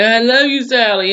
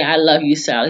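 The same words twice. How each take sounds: First: Mock crying plea. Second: Said in the usual way. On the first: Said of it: "he's crying 'cause the shit hurts". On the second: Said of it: "she tells him".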